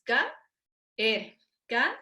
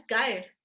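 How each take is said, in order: First: "caer" split into ca... ER; silabeado. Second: "caer" squeezed into one syllable, KAIR; diptongo incorrecto. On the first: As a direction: say "caer" as two separate syllables with a pause between. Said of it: "Caer tiene dos sílabas". ("caer" silabeado, ca - er, con hiato) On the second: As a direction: run the a and e of "caer" together. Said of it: "no es caer". ("caer" en una sola sílaba, como "cáer") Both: Shown as a demonstration.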